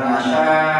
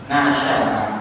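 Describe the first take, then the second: First: The word ends in a long vowel, no glottal stop. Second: The word ends with a clear glottal stop. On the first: It would be a weak verb with alif. The speaker calls it wrong. "bukan nasya'a" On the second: It is a verb with hamzah, not alif. The speaker calls it right. "Tapi nasya'a"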